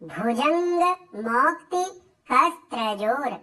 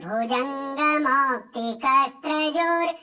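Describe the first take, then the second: First: The words are split into separate pieces. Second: The words run together without breaks. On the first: "कैसे पढ़ेंगे" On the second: "एक साथ कैसे बोलेंगे"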